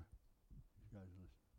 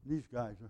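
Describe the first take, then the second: First: These guys are listening breathed in a hush; whisper. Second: Said in the usual way. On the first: Real, not acted. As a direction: drop to a secret whisper. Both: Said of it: "repeats it in a whisper".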